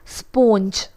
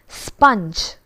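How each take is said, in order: First: It is said with a Malayalam-influenced pronunciation. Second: It is said with the standard English pronunciation. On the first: The speaker calls it wrong. "we pronounce this as sponge. But that is wrong" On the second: The speaker calls it right. "It's sponge"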